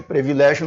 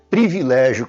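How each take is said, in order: First: Privilégio as "pre-vi-LÉ-gio"; Privilégio with E in first syllable. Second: Privilégio as "pri-vi-LÉ-gio"; privilégio with I in first syllable. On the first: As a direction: start Privilégio on "pre" instead of "pri". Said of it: "Privilégio não existe". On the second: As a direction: start privilégio clearly on "pri". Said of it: "é privilégio com I". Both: Shown as a demonstration.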